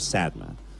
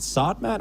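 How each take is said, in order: First: The first vowel sounds like the one in 'sad'. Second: The first vowel sounds like the one in 'sod'. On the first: The speaker calls it wrong. "I've been saying it the wrong wrong way the whole time" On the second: The speaker calls it right.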